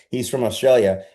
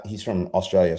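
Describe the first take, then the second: First: A light, hammed-up Australian accent on "Australia"; lightly faked Australian twang; bad Australian accent. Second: Said in the usual way. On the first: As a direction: say it like a mock Aussie, a bit louder. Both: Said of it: "I'll give you my really bad Australian accent".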